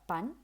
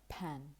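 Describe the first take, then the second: First: The p is released without a puff of air. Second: The p is released with a puff of air. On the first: The speaker calls it wrong. "It's not a pan" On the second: The speaker calls it right. "but a pan"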